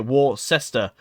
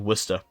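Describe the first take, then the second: First: The name is sounded out as it is spelled. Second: The name is said in a shorter, contracted form. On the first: This is how outsiders read the name. The speaker calls it wrong. "most people look at that and say" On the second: This is how locals say the name. The speaker calls it right. "It's actually"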